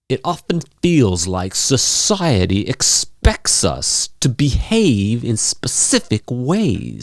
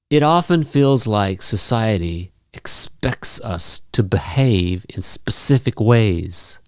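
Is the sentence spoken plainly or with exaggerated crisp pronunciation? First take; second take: exaggerated; plainly. First: It is spoken with exaggerated, popping articulation. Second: It is spoken in a plain, ordinary way.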